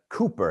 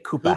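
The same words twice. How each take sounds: First: It is said in a standard accent. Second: It is said in a Massachusetts accent.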